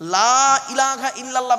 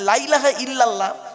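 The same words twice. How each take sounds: First: The vowel in the first word is drawn out. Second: The vowel in the first word is cut short. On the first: There is no god but Allah. The speaker calls it right. "লয়াকারে টান দেবেন, লাতে টান আছে" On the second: Surely there is a god besides Allah. The speaker calls it wrong. "লয়াকারে টান না দিলে কিরম মানেটা পাল্টে যায়"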